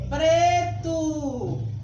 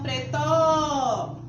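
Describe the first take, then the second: First: The stress is on the first syllable. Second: The stress is on the last syllable. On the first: The speaker calls it right. "A sílaba tônica é pre" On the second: The speaker calls it wrong. "E não pretó. ... estou pronunciando como? Errado"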